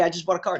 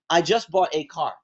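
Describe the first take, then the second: First: The word 'a' is reduced to a quick 'uh'. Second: The word 'a' is said as a full 'ay'. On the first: This is how people naturally talk. "instead of saying" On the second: This is how people read text aloud. "When we're reading a letter, when and we come across the word a, we tend to say"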